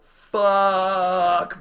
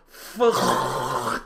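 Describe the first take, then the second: First: Long, loud, high yelled curse; attempted scream. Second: Drawn-out curse dissolving into rushing air; scream choked by air. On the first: Jumper trying to scream in free fall, long yell. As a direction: scream it out with full force. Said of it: "I try to scream". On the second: Retold or imitated. Jumper's scream cut off by air in face, blown-out gust. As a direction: start the word, then get blasted by wind. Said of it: "air just shoves itself up my face".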